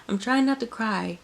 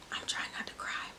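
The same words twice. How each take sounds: First: Choked, higher voice holding back tears; fighting tears. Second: Whispered, fighting back tears; holding back tears. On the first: Telling viewers she is moved, choked-up higher voice. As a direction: push through the words as the tears come. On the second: Telling viewers about Jodi Benson at the premiere, tearful whisper. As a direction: barely get the words out past the tears. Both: Real, not acted.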